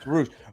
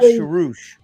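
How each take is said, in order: First: The name begins with a plain s sound. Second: The name begins with an sh sound. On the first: The speaker calls it right. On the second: The speaker calls it wrong.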